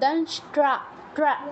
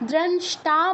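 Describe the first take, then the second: First: The t is followed by an r sound. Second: The t is said without a following r sound. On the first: The speaker calls it right. "টয়ের নিচে আবার রফলা কিন্তু আছে" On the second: The speaker calls it wrong. "দ্রংষ্টা বললে হবে না"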